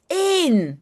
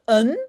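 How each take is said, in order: First: The vowel is full and long. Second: The vowel is short and reduced. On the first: It is the number one. The speaker calls it right. "it's in" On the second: It is the article a. The speaker calls it wrong. "it's not un"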